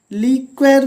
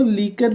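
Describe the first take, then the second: First: लीक्वेर with a "kw" sound in the middle; variant with kw. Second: लीकर with a plain "k", no w; preferred k sound. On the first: Teacher cites how some people say it, लीक्वेर with kw. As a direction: say लीक्वेर as "leek-wer". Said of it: "लीक्वेर भी बोलते हैं कुछ लोग". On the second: Teacher gives learners the preferred form, लीकर with plain k. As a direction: say लीकर as "lee-kar". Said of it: "लीकर ही सही है". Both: Shown as a demonstration.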